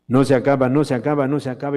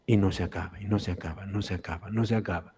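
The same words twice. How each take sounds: First: Louder no se acaba, swelling with joy; rising excitement. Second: Soft, hushed repetition of amazement; hushed wonder. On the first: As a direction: burst out no se acaba in delight. (con entusiasmo creciente) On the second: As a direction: let each no se acaba fade softer in awe. (en voz baja, asombrado) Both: Acted. Marvel at endless bread.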